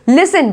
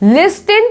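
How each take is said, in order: First: No t sound is heard in the middle. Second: A t sound is heard in the middle. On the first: The speaker calls it right. "इसको पढ़ेंगे लिसन" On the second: The speaker calls it wrong. "लिस्टिन पढ़ोगे क्या इसको"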